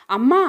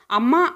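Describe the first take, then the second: First: A sudden, startled, louder అమ్మా with a rise; mother caught off guard, clutching her son: startled; surprised gasp of a word. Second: A mild, understated tearful cry with a rise; boy clinging to his mother, a touch of tears. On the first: Narrated mother to Bhagyasri, startled and louder. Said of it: "అంది ఆశ్చర్యంగా". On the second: Son at the airport calling his mother, lightly tearful. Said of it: "ఏడవటం మొదలుపెట్టాడు". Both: A narrator's reading.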